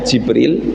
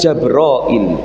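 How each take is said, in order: First: The first vowel is i, in two syllables. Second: The first vowel is a, in three syllables. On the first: "bikasril jimi" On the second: "ditambah dengan hamzah"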